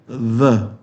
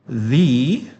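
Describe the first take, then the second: First: The vowel is a short weak uh sound. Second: The vowel is a long ee sound. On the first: The next word begins with a consonant. "before consonant sound we pronounce the, yeah, like the N, the N of mother" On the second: The next word begins with a vowel. "seperti suaranya C. It rhymes with C"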